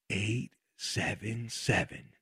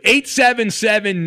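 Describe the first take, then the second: First: It is said slowly. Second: It is said fast.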